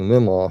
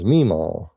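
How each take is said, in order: First: It has a milder Southern accent. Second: It has a stronger, broader Southern accent. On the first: The usual way people in the South say it. "instead of saying Meemaw" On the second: The way someone from Alabama says it. "she says Meemaw"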